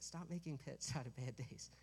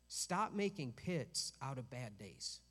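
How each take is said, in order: First: Softer, said through a smile; smiling. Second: Firm, slow, stern command. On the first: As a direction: say it gently with a smile. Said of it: "I'll smile when I say it". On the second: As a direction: say it like a stern order. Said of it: "That, that sounds so mean". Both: Shown as a demonstration.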